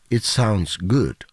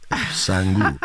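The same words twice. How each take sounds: First: Said in the usual way. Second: "Sangu" with the accent, sounds good run into two syllables; Cuban-accented sounds good. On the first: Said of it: "No, you didn't say that". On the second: Shown as a demonstration. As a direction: say "Sangu" as one slurred accented word. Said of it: "S A N G U with the accent".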